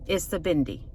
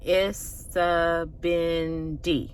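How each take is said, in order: First: The word is said quickly. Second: The word is said slowly. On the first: "Now I'm going to say it faster" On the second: "We're going to do it slow"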